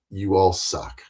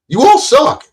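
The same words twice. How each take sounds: First: Low, soft flat you all suck; quiet dismissive repeat; muttered. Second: High, loud jeering you all suck; mocking shout, much higher and louder; taunting yell. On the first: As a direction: drop it down to a mutter. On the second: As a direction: jeer it at them. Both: Real, not acted. Taunts YouTubers, then repeats low.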